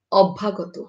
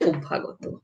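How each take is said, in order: First: অভ্যাগত with an open ɔ first vowel; অভ্যাগত read as spelled, ɔbbhagɔt; read as written. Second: অভ্যাগত with an o first vowel and a final o, obbhagoto; অভ্যাগত said the spoken way, softer; spoken pronunciation. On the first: (অভ্যাগত লিখিত রূপে) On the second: (অভ্যাগত ও-কারের মতো উচ্চারণে) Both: Shown as a demonstration. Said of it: "জফলা যুক্ত হবে তখন".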